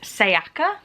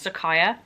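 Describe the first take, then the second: First: The y sound comes before the k sound. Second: The k sound comes before the y sound. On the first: The speaker calls it right. "I'm gonna go with Sayaka Murata" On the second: The speaker calls it wrong. "I've been pronouncing the author's name wrong"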